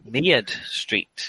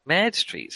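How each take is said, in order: First: "Mead Street" with an "ee-uh" glide in the first word; pronounced with "ear". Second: "Mead Street" with "Mead" like French "merde"; French-sounding mispronunciation. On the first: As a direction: say "Mead" as "Meard", with an "ear" vowel. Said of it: "It's got an ear in it". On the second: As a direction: say "Mead" as "merd", with a short open "e". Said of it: "awful French street". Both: Shown as a demonstration.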